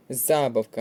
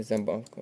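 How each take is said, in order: First: Забавка with a louder stressed за at the start; stress on first А. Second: Забавка stressed on the middle бав; wrong stress, second syllable. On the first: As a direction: hit the first vowel of забавка. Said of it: "У цьому слові на". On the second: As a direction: shift the weight to бав in забавка. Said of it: "а не забавка". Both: Shown as a demonstration.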